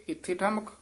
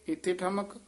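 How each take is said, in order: The two takes are said the same way.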